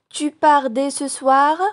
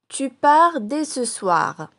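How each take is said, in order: First: It is said with question intonation. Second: It is said with statement intonation. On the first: It asks whether this is true. "j'ai changé mon intonation" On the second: It states a fact. "c'est une phrase déclarative"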